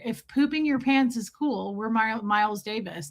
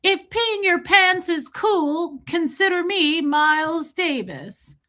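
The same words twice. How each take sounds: First: Lightly soothing, settling down; calming reassurance. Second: Put-on high, drawn-out old-lady movie voice; stretched-out, high mock old woman; old lady impression. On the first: Real, not acted. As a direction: own voice, easing off softer at the end. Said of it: "trying to calm her down". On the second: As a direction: play the old lady, slow and pitched way up. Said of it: "when the really old lady is like".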